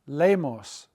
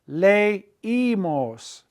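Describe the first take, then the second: First: The E and I blend, giving two syllables. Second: The E and I separate, giving three syllables. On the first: The speaker calls it wrong. "the E I would be a diphthong" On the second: The speaker calls it right. "We want three syllables"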